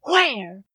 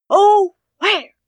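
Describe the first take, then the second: First: Said in the usual way. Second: High, loud anguished cry of Oh, where; frantic wail. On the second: Acted. Mother searching everywhere for her money, frantic high cry.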